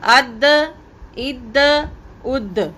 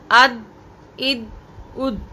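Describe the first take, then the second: First: अद, इद, उद with a bounce on the द; echoed release. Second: अद, इद, उद with no bounce on the द; flat release. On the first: Teacher demonstrating echoed द endings. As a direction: bounce each द. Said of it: "अगर आप इसको ऐसे पढ़ेंगे". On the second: Teacher showing the wrong unechoed ending. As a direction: stop each द dead. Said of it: "तो ये गलत होगा". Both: Shown as a demonstration.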